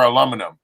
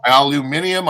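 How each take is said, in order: First: Aluminum in four syllables, "a-LUM-uh-num"; American form. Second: Aluminium with five syllables, "al-you-MIN-ee-um"; British form. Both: Shown as a demonstration. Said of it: "Either one".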